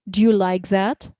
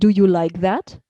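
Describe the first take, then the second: First: Do you is reduced and run together. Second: Do you is said fully and separately. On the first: "things like contraction" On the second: "instead of"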